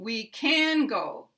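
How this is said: The word can carries strong stress. The listener is wrong. "I can put stress on can"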